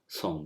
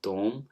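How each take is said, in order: First: The word begins with an s sound. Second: The word begins with a t sound. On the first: This is another Hijazi pronunciation. "and some will give it a sound as som" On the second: This is one Hijazi pronunciation. "in the Hijazi, some speakers will prefer it with tom"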